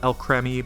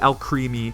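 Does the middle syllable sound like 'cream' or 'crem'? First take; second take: crem; cream. First: The middle syllable has a short 'eh' vowel. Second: The middle syllable has a long 'ee' vowel. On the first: "usually it makes the eh sound" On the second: "because obviously this is a cream Pokemon"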